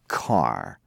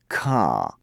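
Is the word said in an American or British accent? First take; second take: American; British. First: American accent, with the final r sounded. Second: British accent, with the final r dropped. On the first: "Americans say car" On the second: "the British say car"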